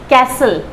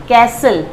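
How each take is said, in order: Both takes have the same delivery.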